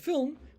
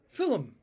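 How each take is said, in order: First: It is said without an extra vowel. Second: An extra vowel sits between L and M.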